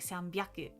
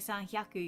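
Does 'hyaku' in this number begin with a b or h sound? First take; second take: b; h. First: The second part begins with a b sound. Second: The second part begins with an h sound. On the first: The speaker calls it right. "you say sanbyaku" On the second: The speaker calls it wrong. "you never say sanhyaku"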